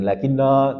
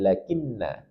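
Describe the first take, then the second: First: The final vowel is drawn out long. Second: The final vowel is kept short. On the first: The speaker calls it wrong. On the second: The speaker calls it right. "selamanya dibaca pendek"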